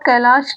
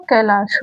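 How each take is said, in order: First: "कैलाश" ending in a hushing sh; wrong sibilant. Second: "कैलाश" ending in a dental s; correct dental sibilant. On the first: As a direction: say "कैलाश" as kai-laash. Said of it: "कैलाश नहीं होगा". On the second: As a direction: say "कैलाश" as kai-laas. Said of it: "कैलाश होगा". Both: Shown as a demonstration.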